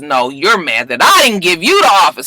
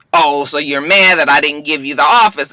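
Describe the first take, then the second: First: "I" stressed, a bit louder, falling at the end. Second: "office" carries the main stress, falling at the end. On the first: Wife throwing the accusation back, stressing "I". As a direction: hit the word "I" to turn it back on him. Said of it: "And she says". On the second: Husband accusing his wife, stressing "office". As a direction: lean on the word "office". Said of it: "He says". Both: Retold or imitated.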